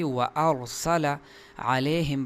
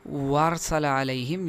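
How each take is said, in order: First: The glottal catch is kept between the words. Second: The glottal catch is dropped, words run together. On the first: The speaker calls it right. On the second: The speaker calls it wrong.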